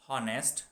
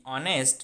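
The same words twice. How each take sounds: First: "honest" wrongly begun with a breathed H; sounded H. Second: "honest" starting on the vowel, as "onest"; silent H. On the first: Teacher showing what not to say, "honest" with the H sounded. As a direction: say "honest" as "HON-est", H pronounced. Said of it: "not honest". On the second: Teacher showing students how honest is pronounced, "honest" with silent H. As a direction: say "honest" with no H sound. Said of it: "is also pronounced like honest". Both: Shown as a demonstration.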